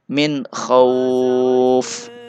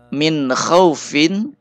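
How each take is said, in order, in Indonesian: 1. Frasa ini berakhir pada konsonan mati. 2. Frasa ini berakhir dengan suku kata -in.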